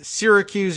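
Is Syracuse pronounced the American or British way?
American. Syracuse is said with an American pronunciation.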